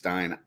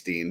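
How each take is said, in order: First: The vowel sounds like the one in 'mine'. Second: The vowel sounds like the one in 'bean'. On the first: The speaker calls it right. "Maybe it's Stein" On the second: The speaker calls it wrong. "I think it's Steen"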